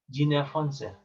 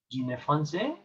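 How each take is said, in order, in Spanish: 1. El tono baja al final. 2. El tono sube al final. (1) "va hacia abajo" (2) "en pregunta dirías"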